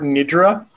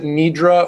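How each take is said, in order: First: The first vowel is a short i sound. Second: The first vowel is a long ee sound. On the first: "pronouncing it with a soft I sound" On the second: "I've always heard it with an E sound"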